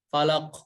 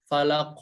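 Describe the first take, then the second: No difference in how they are said.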